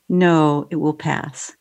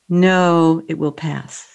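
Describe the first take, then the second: First: It is said in a soft, gentle voice. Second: It is said in a plain, neutral voice.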